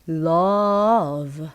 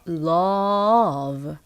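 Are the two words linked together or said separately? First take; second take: linked; linked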